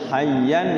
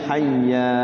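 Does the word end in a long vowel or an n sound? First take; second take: n sound; long vowel. First: The word ends with an n sound. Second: The word ends on a long a vowel. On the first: The reading continues without stopping. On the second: The reader stops on this word.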